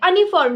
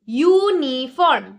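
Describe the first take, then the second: First: The word begins with a plain vowel sound. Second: The word begins with a 'you' sound. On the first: The speaker calls it wrong. "अनिफॉर्म नहीं" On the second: The speaker calls it right. "जो pronunciation है वो हमने यूनिफॉर्म बोला है"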